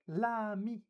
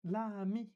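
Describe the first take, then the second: First: The article's L is joined onto the noun. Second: The same.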